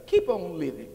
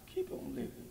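First: Louder, pressing the words keep on living; firm exhortation. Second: Whispered echo. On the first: Preacher urging the congregation to keep going, firm push. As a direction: urge them on, keep on living, firmly. Repeated exhortation, loud take. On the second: Preacher repeating it to the congregation, hushed whisper. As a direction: keep on living, breathed high and soft with no voice. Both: Acted.

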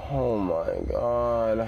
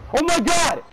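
First: Drawn-out, slow breathless recovery; slow shaken sigh. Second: Very high, very loud scream of terror; terrified scream. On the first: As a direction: let the fright drain out slowly. Drawn out after the scare. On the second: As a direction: scream at the top of your lungs. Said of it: "I just screamed harder". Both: Real, not acted.

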